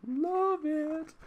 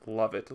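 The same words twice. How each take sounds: First: High drawn-out falsetto "love it"; sing-song delight. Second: Said in the usual way. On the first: Real, not acted. Reviewer savoring a comic's opening quote, high drawn-out delight. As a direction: stretch it out, way up high.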